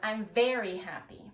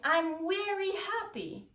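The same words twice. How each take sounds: First: 'Very' begins with a V sound. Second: 'Very' begins with a W sound. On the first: The speaker calls it right. "instead of" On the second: The speaker calls it wrong. "changing a consonant for another consonant"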